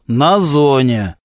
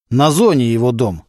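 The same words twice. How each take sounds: First: На зоне drawn out at half pace; emphatic repeat. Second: Said in the usual way. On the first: A narrator's reading. Boss insisting a bandit belongs in prison, emphatic. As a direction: stretch «На зоне» slowly for emphasis.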